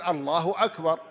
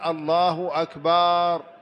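First: The vowel after the b is kept short. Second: The vowel after the b is drawn out long. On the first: God is the greatest. The speaker calls it right. "وأنت تقول الله أكبر" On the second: It refers to drums. The speaker calls it wrong. "يمد الباء بعد أكبر"

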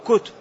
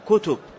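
First: The second consonant is silent, without a vowel. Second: The second consonant is followed by a u vowel. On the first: "بإسكانها" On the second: "بضم التاء"

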